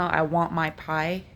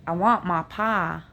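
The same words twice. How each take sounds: First: Said in the usual way. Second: "my pie" said "ma pah", the I flattened to "ah"; Appalachian version, louder, with flat "ah" vowels; Appalachian accent. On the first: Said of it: "You know". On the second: Shown as a demonstration. Vlogger contrasting her Appalachian vowels. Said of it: "the Appalachians say the I sound".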